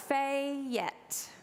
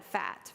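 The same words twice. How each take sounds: First: Fat stretched into two syllables, "Fayette", Eastern Kentucky style; Eastern Kentucky accent. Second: Said in the usual way. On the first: Shown as a demonstration. Showing the congregation her childhood Eastern Kentucky "Fayette". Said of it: "was how I said fat". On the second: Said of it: "learned to say the word fat as one syllable".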